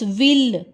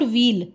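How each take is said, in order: First: The L sound is pressed firmly. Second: The L sound is said lightly. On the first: The speaker calls it right. "ल पर थोड़ा प्रेशर डालना है" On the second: The speaker calls it wrong. "it's not ville"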